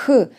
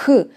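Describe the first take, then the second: First: The sound has strong, raspy friction. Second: The sound has strong, raspy friction.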